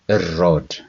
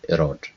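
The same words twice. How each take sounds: First: The R is held long and said deep. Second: The R is short and said lightly. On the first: The speaker calls it right. "we also stay longer, but we we talk it deeper" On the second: The speaker calls it wrong. "It is not erode"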